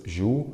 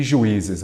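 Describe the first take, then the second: First: "Juízes" broken as ju, í, zes with long pauses; split into syllables. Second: Said in the usual way. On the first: Shown as a demonstration. Teacher separating the plural for students, "Juízes" syllable by syllable. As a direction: say "Juízes" one syllable at a time. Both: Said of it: "vamos separar em sílabas".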